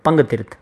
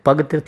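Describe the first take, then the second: First: The first syllable is a nasal 'pang'. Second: The first syllable is a plain 'pa' without nasal. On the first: The speaker calls it right. "નહીં પણ પંગતીર્થ" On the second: The speaker calls it wrong. "પગતીર્થ નહીં"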